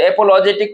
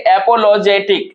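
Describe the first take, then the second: First: एपोलॉजेटिक broken into five beats; split into syllables. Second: Said in the usual way. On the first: Shown as a demonstration. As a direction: say a-pol-o-je-tik for एपोलॉजेटिक, part by part. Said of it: "को हम लिखते हैं". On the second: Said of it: "एपोलॉजेटिक को हम लिखते हैं".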